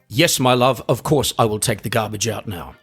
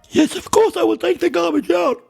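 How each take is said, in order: First: It is said in a manly voice, breathing out. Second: It is said strangely, while breathing in.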